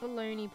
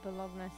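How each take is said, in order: First: It is said the American way, like baloney. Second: It is said the Italian way, with a gn sound. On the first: It is the American take on the meat. "I associate bologna probably with more America" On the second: It is the Italian version of the name. "bologna sounds like an Italian version"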